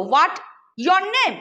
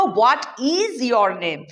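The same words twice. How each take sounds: First: Said in the usual way. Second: Very slow, with "is" pressed hard; slow teaching demo hitting "is"; stress on is. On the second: Shown as a demonstration. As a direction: spell out "What is your name?" word by word, leaning on is. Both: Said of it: "না, আমি বলবো".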